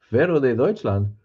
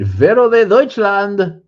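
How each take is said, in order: First: Said in the usual way. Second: High, loud, slow mock announcer call; booming announcer. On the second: Streamer announcing a viewer's name, booming mock call. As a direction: belt the name out like a ring announcer.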